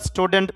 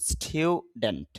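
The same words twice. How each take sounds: First: স্টুডেন্ট with a plain u; plain স্টু in স্টুডেন্ট; common pronunciation. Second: Slow স্টুডেন্ট with a স্টিউ sound; correct pronunciation. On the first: Teacher shows the usual স্টুডেন্ট. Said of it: "শুদ্ধ হবে স্টুডেন্ট". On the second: Teacher models স্টুডেন্ট slowly with স্টিউ. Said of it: "একটু স্টিউ sound হবে". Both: Shown as a demonstration.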